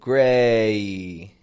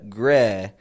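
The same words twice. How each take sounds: First: The vowel is stretched with a 'yee' glide. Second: The vowel is short with no added glide. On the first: "It makes this kind of yee sound at the end of it" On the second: "it's not just a gray"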